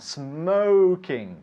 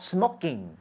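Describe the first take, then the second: First: The first vowel is long, as in 'go'. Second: The first vowel is short, as in 'lock'. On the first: The speaker calls it right. "Smoking. Very good" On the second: The speaker calls it wrong. "not smocking"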